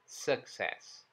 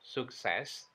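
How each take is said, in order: First: The first vowel sounds like e. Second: The first vowel sounds like u. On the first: The speaker calls it right. "tapi e" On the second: The speaker calls it wrong. "atau suk"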